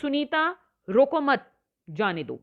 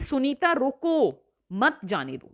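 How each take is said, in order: First: There is a pause right after 'mat'. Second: There is a pause right after 'roko'. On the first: Do not stop her; let her go. "यानी उसे रोको मत, उसे जाने दो" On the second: Stop her; do not let her go. "यानी उसे जाने से रोक रहे हैं"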